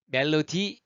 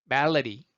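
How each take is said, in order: First: MELODY as "mel-lo-ti", hard T, rising; wrong pronunciation. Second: MELODY as "MEL-uh-ree", D tapped, falling; flapped D. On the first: Teacher showing what to avoid, wrong pronunciation. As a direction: say MELODY with every syllable full. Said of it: "하지 마시고요". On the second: Teacher modelling the easier sound, flapped D. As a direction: stress MEL and tap the D in MELODY. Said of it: "소리가 플랩 돼서". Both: Shown as a demonstration.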